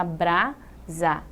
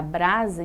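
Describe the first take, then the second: First: "brasa" as bra, pause, sa; split into syllables. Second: Said in the usual way. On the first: Shown as a demonstration. Teacher showing the division, "brasa" syllable by syllable. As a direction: slowly break "brasa" into two syllables. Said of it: "dividir, fica".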